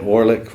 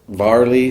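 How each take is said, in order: First: The name begins with a W sound. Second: The name begins with a V sound. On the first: This is how the speaker habitually says it. "I've always said Warlick" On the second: This is the proper pronunciation. "That's how you say it"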